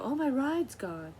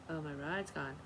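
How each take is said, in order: First: High, slow whiny panic; imitating a panicked woman, much higher; mock panic. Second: Said in the usual way. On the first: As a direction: mimic her wailing about the ride. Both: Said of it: "she was freaking out".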